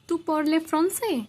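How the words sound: It is said with a questioning tune. It asks whether the listener speaks French. "थोड़ा सा टोन को चेंज करके पूछेंगे"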